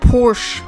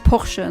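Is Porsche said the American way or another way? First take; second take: American; another way. First: The name is said the American way. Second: The name is said the non-American way. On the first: The speaker calls it wrong. "how Americans pronounce" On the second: The speaker calls it right. "That's the co- correct pronunciation"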